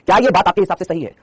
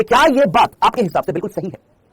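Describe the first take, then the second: First: Said in the usual way. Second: ये drawn out and stressed, slow pace; teacher pressing the class on ये, slowly; slow emphatic question. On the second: Shown as a demonstration. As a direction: lean on ये and stretch the question. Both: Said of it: "अब आप मुझे बताइए".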